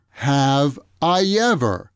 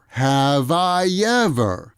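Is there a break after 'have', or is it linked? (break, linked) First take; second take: break; linked. First: There is a short stop after 'have'. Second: The v sound runs straight into 'I'. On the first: "There too, there's a stop after have" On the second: "the V sound from have moves over and connects with the I sound"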